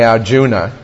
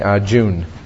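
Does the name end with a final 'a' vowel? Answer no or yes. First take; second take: yes; no. First: The name ends with a final 'a' vowel. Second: The name ends without a final vowel. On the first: "although we say Arjuna" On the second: "generally if there's an A on the end, it's left off"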